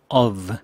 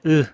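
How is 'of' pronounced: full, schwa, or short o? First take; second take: full; schwa. First: The word is said fully with the f. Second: The word is reduced to a bare schwa. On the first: "표준 발음 of" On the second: "첫 번째 으"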